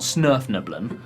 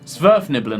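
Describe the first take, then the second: First: The name begins with an 'sn' sound. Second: The name begins with an 'sv' sound. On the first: The speaker calls it wrong. "I got it slightly wrong. They're not Snurfniblen" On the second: The speaker calls it right. "I think, is the correct pronunciation"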